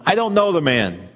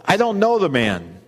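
First: Louder, higher swearing outburst; cursing denial. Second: Higher, louder insistent denial sworn under oath. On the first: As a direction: curse and swear you don't know him. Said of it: "began to call down curses on himself and swore". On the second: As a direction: insist hard that you never knew him. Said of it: "He denied it again with an oath". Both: Acted.

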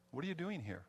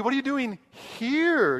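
First: Said in the usual way. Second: What are you doing here? with here much higher and louder; stress on here. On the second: Shown as a demonstration. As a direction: land hard on here, incredulous. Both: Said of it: "And the emphasis could be".

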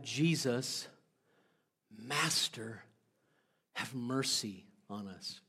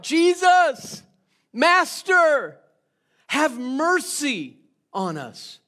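First: Quiet, lower, slower begging; hushed humble plea for mercy. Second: Loud, high desperate cry from afar; loud pleading shout. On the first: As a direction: plead softly, humbled. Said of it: "these guys cry out something different". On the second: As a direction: call out across a distance, begging. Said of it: "these ten lepers then cry out". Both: Acted.

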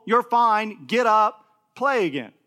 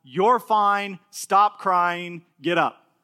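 First: Loud, matter-of-fact, brushing the fuss aside; firm reassurance. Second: Put-on firm, louder no-nonsense dad telling his toddler off; brisk, stern, get the kid back on his feet; stern father. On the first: Retold or imitated. Father brushing off his toddler's fake crying, firm and louder. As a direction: tell him plainly he's fine and to play on. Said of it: "except to be told". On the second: Father telling his fussing two-year-old to get up, stern. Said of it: "I said to my child".

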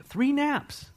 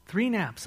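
First: High-pitched incredulous "Three naps"; comic high exclamation; mock amazement. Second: Said in the usual way. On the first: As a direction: squeak out "Three naps" in disbelief. Mock amazement at disciples sleeping.

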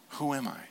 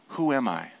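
First: Quieter, inward second asking; hushed echo of the question; softer repeat. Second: Said in the usual way. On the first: Shown as a demonstration. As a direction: repeat the question softly, inviting reflection.

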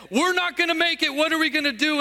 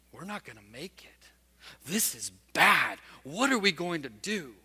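First: One disciple finally voicing panic to the others; fearful voice said aloud. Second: Hushed fearful whisper of a private worry; frightened disciple whispering to himself in the storm; whispered inner thought. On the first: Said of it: "There was one that finally said". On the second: Retold or imitated. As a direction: breathe it like a thought nobody hears. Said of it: "with a thought bubble, not something audibly".

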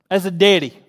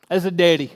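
No difference in how they are said.

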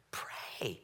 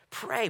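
First: Soft unvoiced whisper of Pray; whispered plea. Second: Pray. said higher, as a short falling call; raised plea. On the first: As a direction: breathe the word Pray. with no voice. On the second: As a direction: lift Pray. up high and let it drop. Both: Shown as a demonstration.

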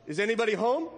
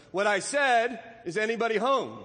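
First: Higher questioning call with a rising end. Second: Louder, higher, insistent repeat call; calling out very loudly. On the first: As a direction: call into a rabbit hole to see who's in. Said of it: "he calls out". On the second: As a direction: repeat the call firmly, falling at the end. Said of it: "called out Pooh very loudly". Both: A narrator's reading.

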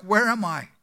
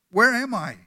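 First: A lightly voiced confused old missionary; dazed dying man. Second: Higher, louder, more alarmed repeat; more urgent dazed man. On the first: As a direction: ask it as if just waking, lost. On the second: Acted. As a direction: push the question up, growing anxious. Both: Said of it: "he opened his eyes and asked".

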